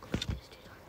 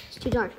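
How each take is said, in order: First: Hushed whisper so nobody hears. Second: Said in the usual way. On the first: Real, not acted. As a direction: whisper it while hiding. Hiding, repeats it in whisper.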